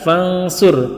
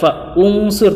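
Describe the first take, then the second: First: Fa runs straight into nsur with no u. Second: A glottal stop and u vowel follow fa. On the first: The speaker calls it right. "tapi fangsur" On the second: The speaker calls it wrong.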